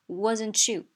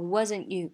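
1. wasn't 里的 t 带有爆破音。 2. wasn't 里的 t 被吞掉，没有爆破。

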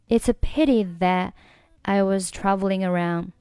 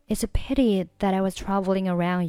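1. 'that'的t音不发，然后停顿。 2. 'that'平滑地连到'I'上，没有停顿。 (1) "你可以选择that 末尾不发音，然后呢，我们停顿一下。" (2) "如果你想要句子更加的流畅……就是把它连在一起读。"

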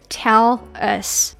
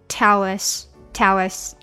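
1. 这两个词是分开说的。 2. 这两个词顺畅地连起来说。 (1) "那本来应该是tell us" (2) "但是我们要把它连起来tell us"

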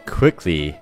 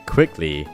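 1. 第一个元音是短促、清脆的 'i'。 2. 第一个元音是短促、清脆的 'i'。

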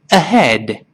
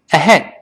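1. 这个词读得慢而且仔细。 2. ahead读得快，结尾的d不爆破。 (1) "跟老师先慢慢读这个词" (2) "再读快一点之后……那个的没有爆破出来，憋住这口气"

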